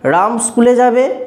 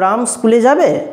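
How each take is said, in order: First: It is said in a plain, neutral tone. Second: It is said in a doubtful, questioning tone. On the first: It simply gives information. "আমার এমনি স্বাভাবিক কোনো রকম রাগ অভিমান ইত্যাদি কিছু প্রকাশ পায়নি" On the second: The speaker is curious or doubtful about it. "একটা সন্দেহ, একটা জিজ্ঞাস্য ভাব প্রকাশ পেল"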